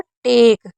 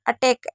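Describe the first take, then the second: First: The middle vowel is said slowly, drawn out. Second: The middle vowel is said short and quick. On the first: The speaker calls it right. "ऐसे बोलना है" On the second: The speaker calls it wrong. "ऐसे नहीं बोलना है"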